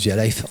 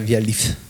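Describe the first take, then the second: First: The vowel in 'life' is an 'eye' sound. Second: The vowel in 'life' is an 'ee' sound. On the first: The name is read as the English word. The speaker calls it right. "pour qu'il se prononce via life en audio" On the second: The name is read by French spelling rules. The speaker calls it wrong. "si on ne le retravaillait pas en phonétique, il se prononcerait via lif"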